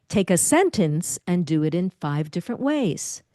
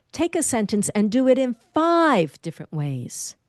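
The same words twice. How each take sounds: First: "sentence" pushed out firmly; stress on sentence. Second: "five" punched and lifted; stress on five. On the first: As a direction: land on the word "sentence". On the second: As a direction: hit the word "five". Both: Shown as a demonstration. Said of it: "I emphasized a different word".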